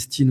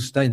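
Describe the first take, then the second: First: The name ends with an 'ee' vowel sound. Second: The name ends with an 'eye' vowel sound.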